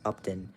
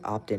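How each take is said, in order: First: The first vowel sounds like 'u' in 'up'. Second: The first vowel sounds like 'o' in 'top'. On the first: The speaker calls it right. "but no, it's Upton" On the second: The speaker calls it wrong. "It sounded like he said Optin instead of Upton"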